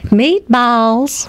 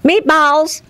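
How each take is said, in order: First: It is said in a Southern US accent. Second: It is said in an Irish accent. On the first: "You know how you say it in the South?" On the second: "You know how you say it in Irish?"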